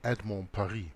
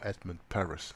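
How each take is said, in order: First: The name is said with French pronunciation. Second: The name is said with English pronunciation. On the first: "French author Edmond Paris" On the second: "as he would pronounce it in English"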